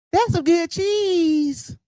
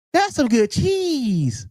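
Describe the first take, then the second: First: Higher, slow, shouted parody; mock quote shout. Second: Slow mock quote. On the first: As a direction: drag it out and shout it like a mocking chant. Mocking the clip line. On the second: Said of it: "Did she say that's some good cheese?".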